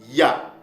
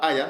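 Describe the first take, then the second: First: The word starts directly with 'ya'. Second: An extra vowel sound comes before 'ya'. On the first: The speaker calls it right. "mais ça se prononce ya" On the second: The speaker calls it wrong. "C'est pas aya"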